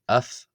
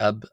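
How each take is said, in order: First: The word ends with an f sound. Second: The word ends with a b sound. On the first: This is how some other speakers say it. "some people, of course, pronounce it as af" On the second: This is how the speaker will say it. "as opposed to ab"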